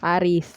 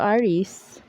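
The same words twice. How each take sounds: First: The word is said in a plain, ordinary way. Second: The word is said in an affected, showy way.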